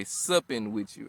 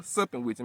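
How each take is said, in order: First: "supping" said slowly and deliberately with an S; careful substitute word. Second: Said in the usual way. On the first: Shown as a demonstration. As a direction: spell out "supping" slowly in place of the swear. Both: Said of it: "Let me say it that way".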